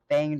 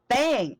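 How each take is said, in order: First: The word is said flatly, with little energy. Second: The word is said loudly, with hyper energy. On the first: The speaker calls it wrong. "You didn't say Bang right" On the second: The speaker calls it right. "say it more expressive?"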